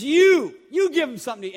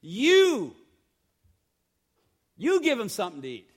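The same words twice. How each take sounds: First: "You" punched high and loud, then the rest driven hard; a sharp, commanding stress on "You"; emphatic you. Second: "You" lifted and stressed, then a quicker run through the rest; a lighter stress on "You" as a quick reminder; emphatic you, again. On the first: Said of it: "the "you" is emphatic". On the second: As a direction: lean on "You" and move on fast. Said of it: "That's why I read it that way". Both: Shown as a demonstration.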